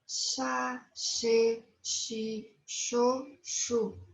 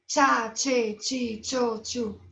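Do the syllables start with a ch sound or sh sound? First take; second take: sh sound; ch sound. First: Each syllable starts with a soft sh sound. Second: Each syllable starts with a sharp ch sound. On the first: The speaker calls it right. "Dentes cerrados" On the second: The speaker calls it wrong. "Não temos"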